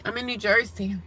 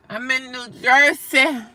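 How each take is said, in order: First: Said in the usual way. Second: Louder, slow, each word spelled out for the chat; emphatic repeat. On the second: Real, not acted. Repeating her state to the chat, louder and slow. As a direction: say it again slowly so they finally hear. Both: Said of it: "repeats answer louder".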